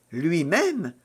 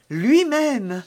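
First: Restrained astonishment at the news; incredulous echo. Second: High, louder, falling confirmation; emphatic confirmation. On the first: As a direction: echo it in disbelief, at the usual pitch. Milady disbelieves he is coming. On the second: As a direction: confirm it proudly, pitched well up. Young woman confirms it proudly. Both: A narrator's reading.

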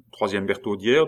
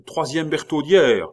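First: "Bertaudière" rising as a question. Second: High, loud cry; urgent shout. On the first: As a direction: ask to check, lifting the end of "Bertaudière". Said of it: "demanda Biot". (« Bertaudière » en intonation montante, interrogative) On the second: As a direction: shout it out on the run. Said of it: "s'élança vers une tour en criant". (cri fort et pressé) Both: A narrator's reading.

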